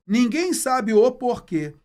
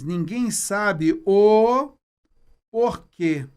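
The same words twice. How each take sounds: First: "Ninguém sabe o porquê" said slowly and evenly, with a loud "Ninguém"; finished sentence. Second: "ninguém sabe o" stretched very slowly, then a pause before "porquê"; drawn-out pause. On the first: Teacher reading the finished sentence to students, slow and clear. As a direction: say "Ninguém sabe o porquê" as one complete line. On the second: Teacher building suspense for students before "porquê", slow and drawn out. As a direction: hold on "o", wait, then drop "porquê". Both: Shown as a demonstration. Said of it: "Finalizei aqui a frase".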